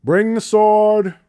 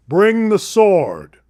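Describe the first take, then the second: First: Slow, louder, higher royal command; King Solomon demands the sword, slow and commanding. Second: Slow, louder royal command, relished; repeating King Solomon's command with relish; commanding king again. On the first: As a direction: order it slowly like a king. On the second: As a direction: savor the king's order slowly. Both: Retold or imitated. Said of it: "He goes".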